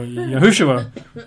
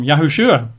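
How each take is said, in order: First: Yahushua said yah-HOO-shoo-ah; other variant of the name. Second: Yahushua said yah-hoo-SHOO-ah; one variant of the name. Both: Shown as a demonstration. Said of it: "or Yahushua".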